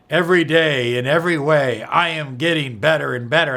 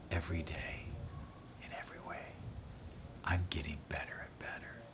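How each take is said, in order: First: Loud, upbeat affirmation, said out. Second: Whispered softly to yourself. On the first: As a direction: announce it to the room. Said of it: "You can do it like that". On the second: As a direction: breathe it as a secret to yourself. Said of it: "you just whisper to yourself". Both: Shown as a demonstration.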